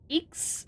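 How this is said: It has the stereotypical New Zealand 'igs' vowel.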